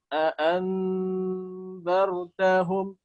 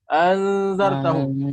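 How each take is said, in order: First: Two separate glottal stops are clearly pronounced. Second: The two initial glottal stops merge into one. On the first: The speaker calls it right. "Hati-hati di sini ya, jadi dibaca" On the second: The speaker calls it wrong. "atau dibaca digabungkan umpamanya anzartahum, satunya dihilangkan"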